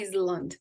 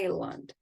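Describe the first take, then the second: First: The s sound is pronounced in the middle. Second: The s sound is silent in the middle. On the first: The speaker calls it wrong. "não é Island" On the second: The speaker calls it right. "é Island ... O S não é pronunciado"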